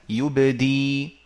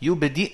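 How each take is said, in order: First: The word ends with a long i vowel. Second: The word ends with a glottal stop. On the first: The hamza is replaced when stopping on the word. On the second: This is the original form with the hamza.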